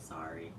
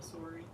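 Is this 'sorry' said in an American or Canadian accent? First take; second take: American; Canadian. First: It is said with an American accent. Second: It is said with a Canadian accent. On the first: "That's what Americans get" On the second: "instead of a sorry"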